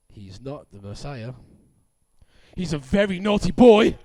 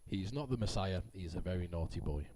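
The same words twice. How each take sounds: First: It is read like a shocking soap opera reveal. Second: It is read in a plain, boring way.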